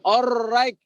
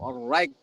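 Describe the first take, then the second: First: The r is strong with a heavy trill. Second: The r is soft with a light trill. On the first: The speaker calls it wrong. "jangan alright, enggak" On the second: The speaker calls it right. "alright kayak gitu aja tuh. Lembut ya"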